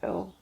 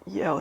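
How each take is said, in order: First: It is said as one single syllable. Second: It is said as two separate syllables. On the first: The speaker calls it right. "I did figure out that it's called L afterwards" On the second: The speaker calls it wrong. "I used to call that scalp E L. Don't ask me why"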